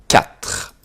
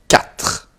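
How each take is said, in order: Both takes have the same delivery.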